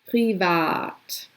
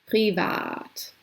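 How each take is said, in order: The two takes are said the same way.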